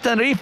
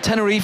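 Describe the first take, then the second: First: The name is pronounced with Spanish sounds. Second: The name is pronounced with English sounds. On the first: "the Spanish are all been like" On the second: "if you're English"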